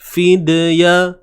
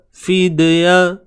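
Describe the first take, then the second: The two takes are said the same way.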